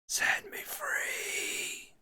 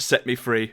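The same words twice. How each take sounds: First: It is whispered. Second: It is said in a normal voice.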